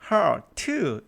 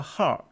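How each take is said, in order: First: The final t sound is clearly pronounced. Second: The final t sound is barely pronounced. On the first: "heart 이지 않고" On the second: "t를 거의 발음하지 않죠"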